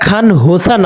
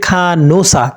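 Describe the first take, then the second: First: An h sound is heard after the n. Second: The n runs straight into the vowel, no h. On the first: The speaker calls it wrong. "এটা খান হোসা না হয়ে" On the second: The speaker calls it right. "এটা হবে খানোসা"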